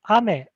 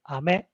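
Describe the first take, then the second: First: Its pitch accent gives the meaning rain. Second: Its pitch accent gives the meaning candy. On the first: The word means rain. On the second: The word means candy.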